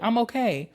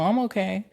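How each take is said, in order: First: The voice sounds sincere and convincing. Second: The voice sounds unconvincing and reluctant. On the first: The speaker really is fine. The speaker calls it right. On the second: The speaker is not really fine. The speaker calls it wrong.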